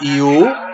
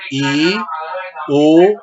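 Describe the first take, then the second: First: The two vowels are joined in one glide. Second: The two vowels are said as separate syllables. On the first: The speaker calls it wrong. "no puedo decir iu" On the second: The speaker calls it right. "tengo que decir i, u"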